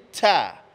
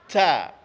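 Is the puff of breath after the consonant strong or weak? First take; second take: strong; strong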